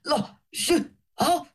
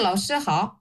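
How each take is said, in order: First: Each word is said separately with pauses. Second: It is said smoothly in one breath.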